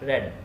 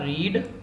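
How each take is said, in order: First: The vowel is short, like in 'red'. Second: The vowel is long, like in 'reed'. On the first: It is the past or past participle form of the verb. "रेड और रेड second और third form की pronunciation क्या होगी" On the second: It is the present or base form of the verb. "तो ये बनेगा रीड first form"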